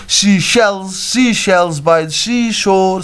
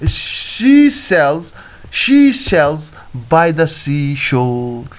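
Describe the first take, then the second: First: "sells" slipped into "shells", with SH for S; tongue-twister slip. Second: "She sells" with SH in "She", clean S in "sells"; careful, spaced-out "She sells", keeping S apart from SH; corrected tongue twister. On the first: Real, not acted. Teacher tripping on a tongue twister, "sells" said as "shells". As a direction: say "She shells" with a SH at the start of both words. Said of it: "Oh, sorry, sir. It is sells". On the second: Shown as a demonstration. Teacher correcting the tongue twister, "sells" said with a clear S. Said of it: "It is sells".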